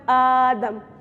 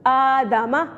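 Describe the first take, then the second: First: The word ends on a consonant sound. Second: The word ends with a final vowel sound. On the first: The reader stops at this word. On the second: The reading continues without stopping.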